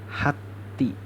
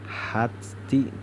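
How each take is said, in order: First: The t merges without audible breath. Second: The t is released with audible breath. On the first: The speaker calls it right. "kita hilangkan sifat hamasnya" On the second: The speaker calls it wrong. "Hati dibaca hati"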